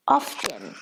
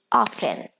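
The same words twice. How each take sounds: First: Often with a clear T, said AHF-tun; American pronunciation. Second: Often said OF-en, no T; British pronunciation. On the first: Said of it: "In American English, people say". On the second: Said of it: "but in British English". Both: Shown as a demonstration.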